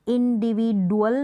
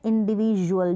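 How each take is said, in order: First: The middle consonant is a plain 'd' sound. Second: The middle consonant is a 'j' sound. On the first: The speaker calls it wrong. "डी को हम इंडिविजुअल नहीं बोल रहे हैं" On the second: The speaker calls it right. "हम बोल रहे हैं इंडिविजुअल, ज का प्रोनाउंसिएशन आ रहा है"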